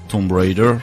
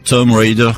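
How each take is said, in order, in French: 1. Le B dans 'Tomb' est prononcé. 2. Le B dans 'Tomb' est muet.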